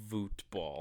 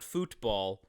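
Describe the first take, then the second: First: It is said with a Dutch pronunciation. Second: It is said with an English pronunciation. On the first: The speaker calls it right. "It's football" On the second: The speaker calls it wrong. "So it's not football. Don't mistake it for football"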